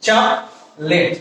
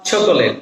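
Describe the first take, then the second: First: Chocolate broken as "chok", pause, "let"; slow two-part chocolate with no middle o; correct pronunciation. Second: Chocolate in three syllables, "cho-ko-let"; common mispronunciation. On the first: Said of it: "this is". (শুদ্ধ উচ্চারণে chocolate, ভেঙে "চক... লেট") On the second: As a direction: sound the middle o in chocolate. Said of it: "This is not". (ভুল উচ্চারণে chocolate, "চ-কো-লেট") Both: Shown as a demonstration.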